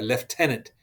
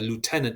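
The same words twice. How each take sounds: First: It is said with a British pronunciation. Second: It is said with an American pronunciation.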